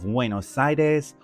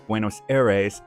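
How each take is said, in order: First: The name is said with a Spanish accent. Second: The name is said with an American accent.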